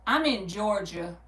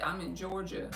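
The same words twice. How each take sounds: First: Said in the usual way. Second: "Georgia" said much softer, almost to herself; softer repeat. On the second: Shown as a demonstration. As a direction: drop the volume way down on "I'm in Georgia".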